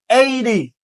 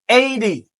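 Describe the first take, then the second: No difference in how they are said.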